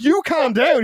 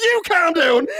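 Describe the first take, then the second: First: Raised, higher-pitched command; retold firm order. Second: High-pitched defiant echo; mock angry comeback. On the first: Police to ranting suspect, imitated firm order. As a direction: imitate police telling someone off. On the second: Suspect back at police, mock indignant retort. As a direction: imitate a suspect throwing the order back.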